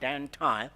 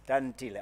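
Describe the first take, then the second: First: The name has an anglicized English pronunciation. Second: The name has its native Xhosa pronunciation.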